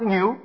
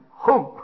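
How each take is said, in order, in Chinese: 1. 该音节读作 niu。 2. 该音节读作 hong。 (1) "你念错了，这个不是念牛啊" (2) "这个念哄啊"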